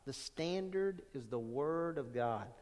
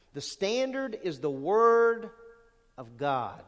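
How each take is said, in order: First: Quiet solemn repeat. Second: Emphatic statement. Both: Shown as a demonstration.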